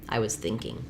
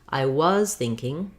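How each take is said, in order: First: The stress falls on the word thinking. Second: The stress falls on the word was. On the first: It is a neutral statement with no special focus. "the regular way" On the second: The focus is on the action being in the past. "focusing on the past"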